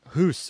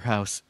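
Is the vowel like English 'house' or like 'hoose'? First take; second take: hoose; house. First: The vowel sounds like 'oo' in 'hoose'. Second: The vowel sounds like English 'house'. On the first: The speaker calls it right. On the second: The speaker calls it wrong.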